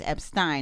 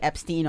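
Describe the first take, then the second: First: The last syllable rhymes with Frankenstein. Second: The last syllable does not rhyme with Frankenstein. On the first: The speaker calls it right. "it's like Frankenstein" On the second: The speaker calls it wrong. "I kept mispronouncing"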